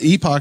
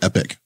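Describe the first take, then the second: First: It ends with an 'ock' sound, like 'ee-pock'. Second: It ends with an 'ick' sound, like 'epic'. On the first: This is the pronunciation used for a computing time standard. "how they pronounce the time standard that's used on Unix systems" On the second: This is the usual pronunciation. "But it's usually Epic"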